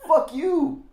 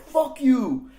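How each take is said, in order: First: Loud high laughing fuck you; mock shout, laughing; laughing curse. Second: Loud high laughing curse; mock yell, laughing; laughing shout. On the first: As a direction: yell it through a laugh. Retold flip-off, laughing. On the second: Retold scene, shouted while laughing.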